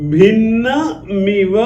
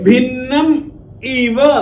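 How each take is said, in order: First: The final m runs into the next word. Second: The two words are said separately.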